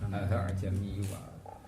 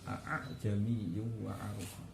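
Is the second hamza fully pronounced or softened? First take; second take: softened; full. First: The second glottal stop is softened. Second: Both glottal stops are fully pronounced. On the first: "sehingga yang hamzah kedua mirip" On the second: "bacanya bitahqiqil hamzatain"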